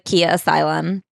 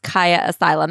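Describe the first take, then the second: First: The first word sounds like the car brand Kia. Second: The first word sounds like the name Kaya. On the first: It evokes a car brand rather than a person. "I thought it was a car dealership" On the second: It refers to the person it is named after. "it should be pronounced Kaya Asylum"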